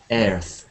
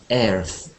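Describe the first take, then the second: First: The vowel sounds like the one in chair. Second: The same.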